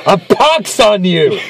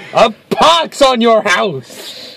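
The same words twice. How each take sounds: First: Slow, grand theatrical curse; hammed-up old-timey curse; arch witty period comedy. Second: Slow, drawn-out stage curse; a hammy Shakespearean curse; arch witty period comedy. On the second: Pretend. Mock curse repeated, extended.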